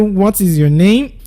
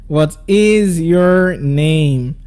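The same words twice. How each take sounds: First: The voice rises at the end. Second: The voice falls at the end. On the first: The speaker calls it wrong. "I didn't say what is your name" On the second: The speaker calls it right. "we make use of the falling tone when you're asking the W H question"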